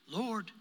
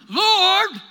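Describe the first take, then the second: First: It is said calmly and softly. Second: It is said with sharp intensity.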